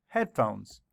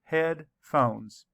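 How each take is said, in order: First: Said in the usual way. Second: Headphones said in two beats, head and phones; syllables split. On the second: Shown as a demonstration. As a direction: tap out the two parts of Headphones. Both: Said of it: "Let's count the syllables".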